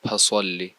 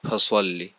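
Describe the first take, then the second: The two takes are said the same way.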